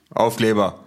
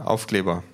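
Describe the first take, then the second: First: Loud, higher, disbelieving repeat; incredulous echo. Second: Said in the usual way. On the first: Acted. Official querying the stickers, loud and incredulous. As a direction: throw the word back, baffled and louder.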